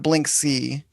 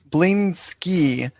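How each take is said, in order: First: The name ends with a k then s sound. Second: The name ends with an s then k sound. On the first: The speaker calls it wrong. "not Blinksy" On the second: The speaker calls it right. "I learned it's Bling Blingsky"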